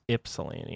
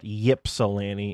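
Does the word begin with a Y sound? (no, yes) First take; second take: no; yes. First: The word begins without a Y sound. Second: The word begins with a Y sound. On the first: The speaker calls it right. "it's Ypsilanti. I'm pretty sure" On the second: The speaker calls it wrong. "even though there is a Y, it's not Ypsilanti"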